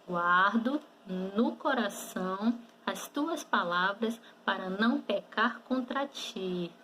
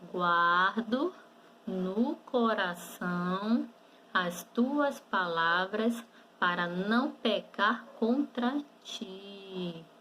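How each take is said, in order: First: The sentence is spoken at normal speed. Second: The sentence is spoken slowly. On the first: "E agora vamos falar normalmente" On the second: "Vamos falar um pouquinho devagar?"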